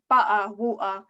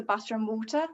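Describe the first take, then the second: First: "butter, water" with glottal stops in place of the T's. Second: "butter and water" with each T clearly pronounced; fully sounded T's. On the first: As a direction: drop each T in "butter, water" into a catch in the throat. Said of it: "say, like, teglottalin". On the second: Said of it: "as opposed to". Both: Shown as a demonstration.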